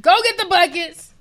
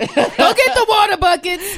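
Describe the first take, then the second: First: Higher, louder call; loud order. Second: Higher, louder, slower laughing call; laughing loud order. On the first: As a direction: shout for the buckets. Repeat joking order. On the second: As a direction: bark the order through laughter. Joking order. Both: Real, not acted.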